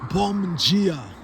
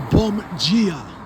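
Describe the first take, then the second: First: The word dia starts with a j sound. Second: The word dia starts with a j sound.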